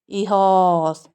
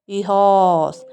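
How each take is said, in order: Both takes have the same delivery.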